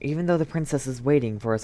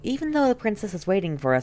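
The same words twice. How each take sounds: First: It is said in a different voice. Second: It is said in the character voice. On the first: The speaker calls it wrong. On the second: The speaker calls it right.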